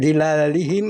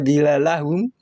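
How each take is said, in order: First: The word ends with 'i' vowels: dhilalihim. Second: The word has an 'a' before -hum. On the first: "tidak dhilalihim" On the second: "atau dhilalahum"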